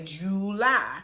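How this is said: It is said in a drawn-out Southern country accent. "Like I say July"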